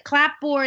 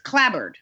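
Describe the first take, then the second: First: Both parts are said fully, ending in 'board'. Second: It is reduced, ending in a weak 'bered'. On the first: The speaker calls it wrong. "I would always say a clapboard house" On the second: The speaker calls it right. "But it's clabbered"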